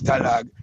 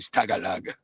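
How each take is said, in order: First: The name is said with two syllables. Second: The name is said with three syllables. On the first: This is the original version. The speaker calls it right. "it's Stalag" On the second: This is the common popular version. The speaker calls it wrong. "people say Stagalag"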